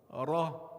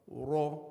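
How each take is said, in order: First: The vowel is open, with an open mouth. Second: The vowel is rounded, like a u sound. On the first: The speaker calls it right. "a ra with a fatha with the a sound will be it will be ra" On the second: The speaker calls it wrong. "my mouth is in the position of a u sound"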